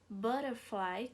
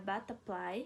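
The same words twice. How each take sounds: First: The word has an F sound. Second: The word has a P sound.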